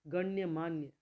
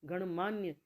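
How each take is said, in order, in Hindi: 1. 'gan' के बाद 'y' की ध्वनि है। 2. 'gan' के बाद 'y' की ध्वनि नहीं है। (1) "गण्यमान्य होता है शुद्ध" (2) "ये मैं भी ना गणमान्य ही बोलती थी"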